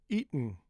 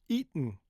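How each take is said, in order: The two takes are said the same way.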